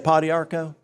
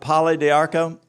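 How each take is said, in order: First: The first part is a short 'pa'. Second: The first part is said as 'palo'. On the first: This is the speaker's habitual casual way. "I just say Padiarco" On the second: This is the proper pronunciation. "but Palo d'Arco"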